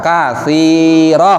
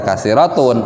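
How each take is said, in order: First: The word ends with a final h sound. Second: The word ends with a final un sound. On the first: The speaker calls it right. "tapi dibaca kasiroh" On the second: The speaker calls it wrong. "jangan dibaca kasirotun"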